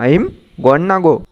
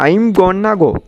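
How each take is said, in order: First: 'Going to' is reduced to 'gonna'. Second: The same.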